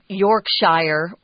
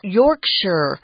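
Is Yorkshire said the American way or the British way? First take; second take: American; British. First: Yorkshire is said the American way. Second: Yorkshire is said the British way. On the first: This is how an outsider said it. The speaker calls it wrong. "which I said when I was growing up" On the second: This is how locals say it. The speaker calls it right. "how they pronounce it over there"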